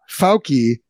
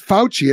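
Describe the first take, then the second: First: The middle consonant is not a ch sound. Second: The middle consonant is a ch sound. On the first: The speaker calls it wrong. "you say Fauci" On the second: The speaker calls it right. "everyone else I've ever heard says Fauci"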